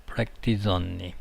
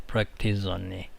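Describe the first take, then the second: Both takes have the same delivery.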